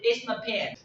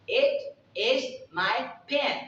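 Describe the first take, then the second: First: It is fast and contracted, with 'my' as 'ma'. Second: Every word is said fully, with a clear 'my'. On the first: "They pronounce the word into ma ... super speedy" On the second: "you can say, it is my pen"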